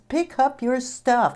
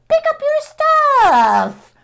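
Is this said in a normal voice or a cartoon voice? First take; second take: normal; cartoon. First: It is said in the speaker's normal voice. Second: It is said in a silly cartoon voice. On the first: The annoyance is expressed directly. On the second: The annoyance is softened and made playful.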